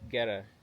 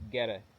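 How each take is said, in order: First: It is said in an American accent. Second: It is said in an American accent.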